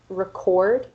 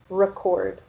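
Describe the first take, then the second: First: The stress is on the second syllable. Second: The stress is on the first syllable. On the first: It is the verb. "which is a verb" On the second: It is the noun. "which is the noun"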